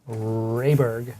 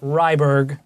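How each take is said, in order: First: The first syllable sounds like 'ray'. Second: The first syllable sounds like 'rye'. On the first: The speaker calls it right. "not Ryberg, like some people say" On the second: The speaker calls it wrong. "like some people say"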